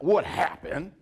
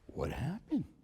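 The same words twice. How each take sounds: First: The question sounds sharp and accusing. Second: The question sounds calm and neutral. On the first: The asker blames the listener. The speaker calls it wrong. "Not, not what happened" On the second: The asker simply wants the facts. The speaker calls it right. "just what happened?"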